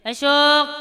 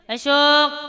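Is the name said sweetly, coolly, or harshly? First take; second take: coolly; coolly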